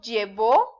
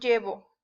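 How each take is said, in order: First: The stress is on the last syllable. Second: The stress is on the first syllable. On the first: It is an action in the past. "si yo digo llevó, estoy hablando de que alguien llevó las cocas en tiempo pasado" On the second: It is an action in the present. "si no le pongo acento, estoy diciendo llevo"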